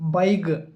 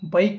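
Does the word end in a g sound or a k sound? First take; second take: g; k. First: The word ends with a voiced g sound. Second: The word ends with a voiceless k sound. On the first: The speaker calls it right. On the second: The speaker calls it wrong. "బైక్ కాదు. బైక్ అనకండి"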